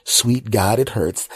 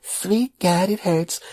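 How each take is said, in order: First: Said in the usual way. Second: Put-on very high child's echo of Sweet God, it hurts; little kid voice. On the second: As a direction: parrot it like a small boy. Nephew repeating uncle's words.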